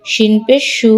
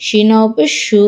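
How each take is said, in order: First: No stretch on সু; short vowel. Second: Long, sustained সু, said shu; drawn-out vowel. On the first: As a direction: end on a short সু, said shu. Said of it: "কোথায় দ্রুত পড়ি". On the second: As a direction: hold the final সু as a long shu. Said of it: "কোথায় টান দিই". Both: Shown as a demonstration.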